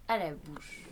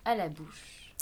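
No difference in how they are said.

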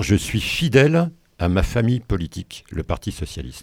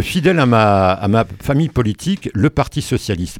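First: "fidèle" lisped with a slushy sh, like "chidèle"; "fidèle" and "socialiste" with a lisping sh for s. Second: "fidèle" said cleanly with a crisp f and clear s; "fidèle" and "socialiste" carefully repeated without the lisp; clear s, corrected. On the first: Real, not acted. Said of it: "je zozote un peu ce matin". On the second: Shown as a demonstration. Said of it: "Non, excuse-moi".

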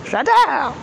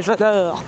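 First: J'adore sung out high and bright; delighted. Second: Said in the usual way. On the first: Real, not acted. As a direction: repeat j'adore much higher, thrilled. Repeats j'adore with more glee.

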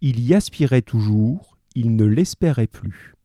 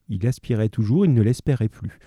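First: Slow reading with a pause after "toujours". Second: Said in the usual way. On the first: Shown as a demonstration. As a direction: read "Il y aspirait toujours", pause, then "il ne l'espérait plus". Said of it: "Comment tu, tu analyses ça". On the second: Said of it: "Là, c'est très, très clair".

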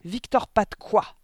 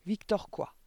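First: Slow, high, very loud demand; yelled question. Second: Sharp question, higher than narration; demanding headmistress. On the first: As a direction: yell it, stretching each word. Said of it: "hurla mademoiselle Le Gourdin". (question hurlée, lente et aiguë) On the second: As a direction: demand an answer without yelling yet. Directrice interroge, premier essai. (question autoritaire, plus aiguë) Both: A narrator's reading.

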